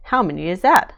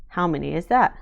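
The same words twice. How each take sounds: First: Louder, asking insistently; louder question. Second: Said in the usual way. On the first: A narrator's reading. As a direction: press the question a bit louder. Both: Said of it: "says Daddy".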